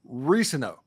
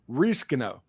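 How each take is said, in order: First: The C in the middle is silent. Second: The C in the middle is sounded. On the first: The speaker calls it right. "it's the C is silent" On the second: The speaker calls it wrong.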